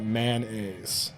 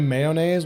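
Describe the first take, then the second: First: The first syllable has an N sound. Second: The first syllable has a Y sound. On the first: The speaker calls it wrong. "replace the the Y with an N in mayonnaise" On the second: The speaker calls it right. "it's because you're a good human being"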